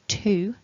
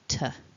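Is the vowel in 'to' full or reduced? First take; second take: full; reduced. First: The vowel in 'to' is a full vowel. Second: The vowel in 'to' is a reduced schwa. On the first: "instead of saying to" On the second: "that weak form"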